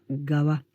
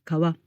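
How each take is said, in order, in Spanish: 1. La palabra empieza con una g sonora. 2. La palabra empieza con una k sorda. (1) "cambia a gawa, con sonido sonoro" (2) "se pronuncia así cuando está sola"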